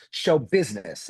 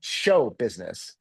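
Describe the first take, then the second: First: The stress falls on the word business. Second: The stress falls on the word show. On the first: The work is above all a business. The speaker calls it right. "It's show business" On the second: The work is above all a show. The speaker calls it wrong. "It's not show business"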